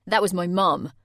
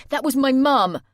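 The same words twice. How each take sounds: First: A stunned, loud realisation; horrified. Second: Higher, louder panicked cry; panicked outburst. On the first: A narrator's reading. Jay realising his mum heard, horrified. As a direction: let the horror sink in. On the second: Acted. Jay panicking that his mum heard everything, loud. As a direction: burst out in panic.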